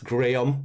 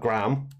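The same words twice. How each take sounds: First: The name is said the British way. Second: The name is said the American way. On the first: The speaker calls it right. "it's Graham" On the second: The speaker calls it wrong. "for any Americans listening, ... not Graham"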